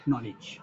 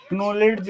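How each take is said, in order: First: नॉलेज with a silent k, starting on n; नॉलेज spoken softly, k dropped; correct pronunciation. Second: क्नॉलेज with the k sounded at the start; wrong silent-k reading. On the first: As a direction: say नॉलेज as nolej, no k sound. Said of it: "इसको पढ़ेंगे केवल क्या". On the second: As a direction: say क्नॉलेज pronouncing the k before n. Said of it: "बहुत से लोग क्नॉलेज पढ़ते हैं". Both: Shown as a demonstration.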